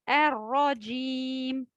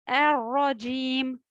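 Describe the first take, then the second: Both takes have the same delivery.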